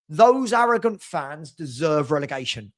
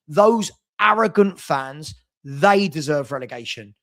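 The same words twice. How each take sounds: First: Said in the usual way. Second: "Those arrogant fans" slow, each word hammered, louder; slow emphatic restatement. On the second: Real, not acted. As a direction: spell out "Those arrogant fans" deliberately and stress "they". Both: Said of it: "I'm saying it".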